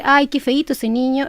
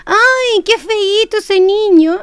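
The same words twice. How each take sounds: First: Plain flat delivery, no warmth; disapproving tone. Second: Put-on high, slow, sing-song baby talk; higher and slow, loving melody; sweet affectionate tone. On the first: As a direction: say it as a put-down. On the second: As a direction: coo it tenderly to the child. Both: Shown as a demonstration. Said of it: "cambia totalmente el sentido".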